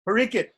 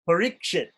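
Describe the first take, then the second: First: It is said with Bengali pronunciation, without the sh. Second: It is said with standard pronunciation, keeping the sh.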